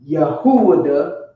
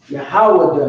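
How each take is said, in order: First: The name is said in three syllables. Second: The name is said in two syllables. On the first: The speaker calls it wrong. "not Yahuwah" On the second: The speaker calls it right. "but Yahweh"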